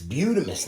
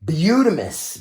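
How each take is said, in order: First: Said in the usual way. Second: Excited exclamation. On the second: Real, not acted. Admiring finished paint job.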